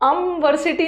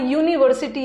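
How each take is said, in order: First: The word begins with an 'uh' vowel sound. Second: The word begins with a 'yoo' sound. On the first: The speaker calls it wrong. "अमवर्सिटी नहीं आ रहा" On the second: The speaker calls it right. "यहाँ यूनिवर्सिटी आ रहा है"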